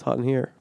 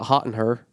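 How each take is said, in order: First: The last word sounds like 'hear'. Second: The last word sounds like 'her'. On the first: The speaker calls it right. "it's hot in here" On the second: The speaker calls it wrong. "it's not hot in her"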